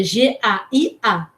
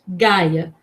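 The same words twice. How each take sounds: First: "G A I A" slowly, each letter named separately; name each letter of "G A I A", pausing between; spelled letter by letter. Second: "Gaia" with a hard g, as one word; read as one word. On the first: Teacher correcting the unwary reading, "G A I A" letter by letter. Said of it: "mas é G A I A". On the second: Unwary readers seeing the letters, "Gaia" read as one word. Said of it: "As pessoas mais desavisadas iam ler". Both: Shown as a demonstration.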